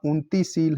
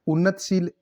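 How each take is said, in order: First: उन्नतिशील as "unti-sheel"; correct pronunciation. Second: उन्नतशील as "unnat-sheel"; wrong pronunciation. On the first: Teacher confirming the word, उन्नतिशील with ti. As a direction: keep the ti in उन्नतिशील. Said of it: "ये शुद्ध शब्द है". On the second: Teacher repeating the error, उन्नतशील without i. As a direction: leave no i after t in उन्नतशील. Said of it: "ऐसे नहीं लिखा जाता". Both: Shown as a demonstration.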